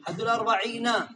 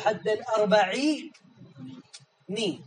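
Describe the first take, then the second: First: The final n ends with an a vowel. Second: The final n ends with an i vowel. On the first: "الأصل أن يقال حد الأربعين" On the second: "هناك من العرب من يكسرها، لكن هذه لغة قليلة"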